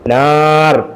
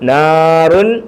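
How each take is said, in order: First: The word ends bare on the final consonant. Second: The word ends with an added -un sound. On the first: The reader stops at this word. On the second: The word is read without stopping.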